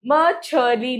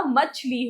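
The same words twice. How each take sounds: First: मछली drawn out in three syllables, "ma-chha-li"; mispronounced मछली. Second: मछली in two syllables, "machh-li"; correct मछली. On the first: Teacher showing children the wrong form, मछली slowly broken as "ma-chha-li". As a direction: slowly say मछली with an extra vowel after छ. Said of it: "मछली नहीं होता". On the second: Teacher giving children the right form, मछली as compact "machh-li". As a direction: run छ straight into ली in मछली. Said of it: "मछली होता है". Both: Shown as a demonstration.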